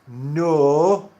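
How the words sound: The word has a Sheffield accent vowel. "You would say it as no"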